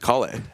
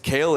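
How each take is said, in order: First: The name is said in its original, non-American way. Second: The name is said the American way. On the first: "but like my name is Kale" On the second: "it's kale in America"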